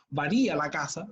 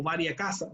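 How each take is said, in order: First: "varía" stressed on RÍ; stress on accented i. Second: "varia" stressed on VA; first-syllable stress in "varia". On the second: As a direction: say "varia" as VA-ria, without accented i. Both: Shown as a demonstration. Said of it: "Va a depender de cómo ustedes lo escriban".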